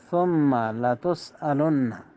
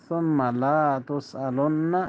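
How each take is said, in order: First: The vowel after the L is short. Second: The vowel after the L is drawn out long. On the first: You will surely be asked. The speaker calls it right. "তাড়াতাড়ি" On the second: You will not be asked. The speaker calls it wrong. "লম্বা করে পড়ে, একালে যদি টেনে বসে"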